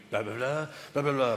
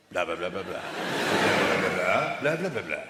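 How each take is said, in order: First: Lowered barrister patter on blahs; right way demonstrated. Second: Low mock-speech babble; wrong way demonstrated. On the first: Barrister showing how to address a jury, lowered patter. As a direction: run the blahs like a courtroom speech, pitched low. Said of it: "This is the way you do it". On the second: Barrister showing the wrong way to turn, low babbled patter. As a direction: babble a courtroom speech on blahs, pitched well down. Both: Shown as a demonstration.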